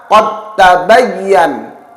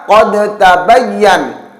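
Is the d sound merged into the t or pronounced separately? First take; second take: merged; separate. First: The d sound merges into the following t. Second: The d is pronounced separately with an echo. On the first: The speaker calls it right. "huruf dal langsung diidghamkan pada huruf ta" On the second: The speaker calls it wrong. "Tidak lagi dibaca"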